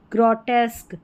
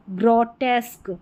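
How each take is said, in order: Both takes have the same delivery.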